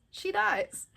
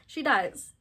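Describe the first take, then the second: First: High, stunned emphasis; can't believe it; shocked repeat. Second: Said in the usual way. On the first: Retold or imitated.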